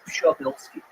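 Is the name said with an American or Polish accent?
Polish. It is said the Polish way.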